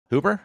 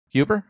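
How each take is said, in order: First: "Huber" with a plain oo after the H, as a question; pronounced HOO-ber. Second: "Huber" with a you sound after the H, as a question; pronounced HYOO-ber. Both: Shown as a demonstration. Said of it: "I always pronounce it Huber".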